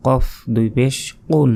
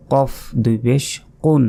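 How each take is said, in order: Both takes have the same delivery.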